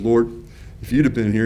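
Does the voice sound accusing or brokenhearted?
brokenhearted. The voice sounds sad and brokenhearted. The speaker grieves to a trusted loved one. "in her brokenhearted state"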